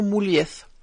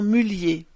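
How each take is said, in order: First: The name is pronounced the Spanish way. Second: The name is pronounced the northern French way. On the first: This is not how the family says the name. The speaker calls it wrong. "et non Moulieth" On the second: This is how the family itself says the name. The speaker calls it right. "qui prononce son nom Mullier"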